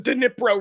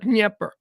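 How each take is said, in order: First: The name ends with a 'pro' sound. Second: The name ends with a 'per' sound. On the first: The speaker calls it wrong. "It's not pronounced the Dnipro River" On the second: The speaker calls it right. "It's pronounced the Dnieper"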